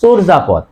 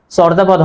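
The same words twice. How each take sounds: First: চর্যাপদ said "chorjapod"; rounded o starting চর্যাপদ; correct o sound. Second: চর্যাপদ said "chawrjapod"; wrong open vowel. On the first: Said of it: "হবে". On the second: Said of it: "চর্যাপদ হবে না". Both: Shown as a demonstration.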